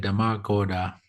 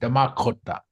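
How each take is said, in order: First: The k sound is soft and weak. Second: The k sound is strong and crisp. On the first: The speaker calls it wrong. "if you say Damakoda, that sounds like wa- uh, Washicho" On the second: The speaker calls it right. "Strong K"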